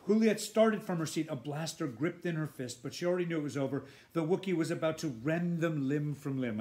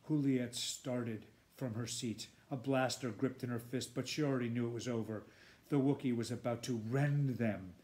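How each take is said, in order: First: Tense, urgent reading. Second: Said in the usual way. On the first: Shown as a demonstration. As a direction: read it with rising urgency. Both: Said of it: "I'm just doing that part again".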